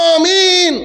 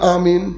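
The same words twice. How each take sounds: First: The word is said loudly. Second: The word is said softly.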